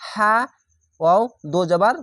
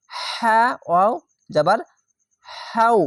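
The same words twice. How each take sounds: First: হা ওয়াও দো জাবার spelled with an added দো; spoken counter-example, হা ওয়াও দো জাবার; wrong spelling-out. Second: হা ওয়াও জাবার spelled slowly, then হাউ held out; measured model spelling ending in drawn-out হাউ; correct spelling-out. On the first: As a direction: spell it out as দো জাবার, no held ending. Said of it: "এরকম নয়". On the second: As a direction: spell হা ওয়াও জাবার with one jabar, landing on a higher হাউ. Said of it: "এভাবে হবে". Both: Shown as a demonstration.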